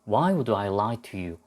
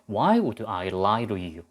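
First: The word 'to' is said with a clear t. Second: The word 'to' is said like a soft 'ru'.

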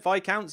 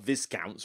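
First: The S in the word is silent. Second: The S in the word is pronounced. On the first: The speaker calls it right. "Isn't the S silent or whatever in that word?" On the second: The speaker calls it wrong. "I know it's not Viscounts or anything strange like that"

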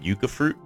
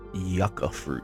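First: The first vowel is a long 'oo' sound. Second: The first vowel is a short 'uh' sound. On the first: The speaker calls it wrong. "I'll probably continue saying yucca fruit because that's what I've always been saying" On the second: The speaker calls it right. "So it's yucca fruit"

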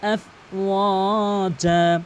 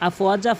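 First: The middle vowel is stretched long. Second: The middle vowel is kept short. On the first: The speaker calls it right. "অবশ্যই একালিফ টেনে পড়তে হবে" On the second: The speaker calls it wrong. "অধিকাংশ লোক একালিফ টেনে পড়ে না ... এটা কিন্তু ভুল"

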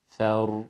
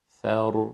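No difference in how they are said.

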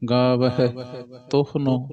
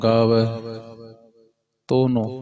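First: The h sound is fully and clearly pronounced. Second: The h sound is swallowed and barely heard. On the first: The speaker calls it right. "ਪੂਰਾ" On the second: The speaker calls it wrong. "ਇਹ ਮਲਿਆ ਗਿਆ ਹਾਹਾ"

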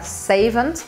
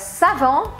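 First: It ends with an audible T sound. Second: It ends without a T sound. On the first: "em inglês eles pronunciam o T e fica savant" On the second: "A palavra savon"

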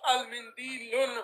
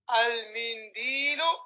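First: The word ends with an added n sound. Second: The word ends on a vowel, no n. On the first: The speaker calls it wrong. "Why not al-mindilun" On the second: The speaker calls it right. "Because of alif wa lam"

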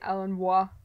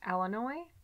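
First: The word ends with a 'wah' sound. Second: The word ends with a 'noy' sound. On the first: "the last letters in Illinois could be pronounced wa" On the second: "people from Illinois seem to think that it's pronounced Illinois"

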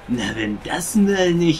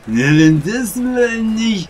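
First: It is said in a normal, sober voice. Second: It is said in a slurred, drunk voice.

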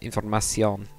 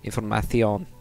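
First: The c is pronounced like an s sound. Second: The c is pronounced like a th sound. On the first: The speaker calls it wrong. "Usually Mexican kind of Spanish ... the first way" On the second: The speaker calls it right. "use the TH sound"

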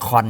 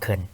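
First: The syllable is stressed with a full vowel. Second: The syllable is unstressed with a reduced vowel.

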